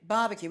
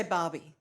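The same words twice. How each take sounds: First: Said in the usual way. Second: "Barbie" as Australians shorten it, two syllables; Australian short form. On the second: Shown as a demonstration. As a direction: model "Barbie" with an open Australian "ah". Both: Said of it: "We say Barbie".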